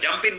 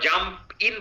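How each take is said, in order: First: The two words run together as one. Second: The two words are said separately. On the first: The speaker calls it right. "জাম্প ইন বলবে" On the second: The speaker calls it wrong. "তারা জাম্প ইন বলবে না"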